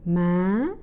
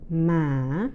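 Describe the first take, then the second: First: The pitch starts high and rises sharply. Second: The pitch dips low and then rises. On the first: "the high rising tone" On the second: "the asking or low rising tone"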